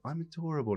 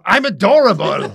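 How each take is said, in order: First: It is said softly and sweetly. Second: It is said loudly, almost shouted.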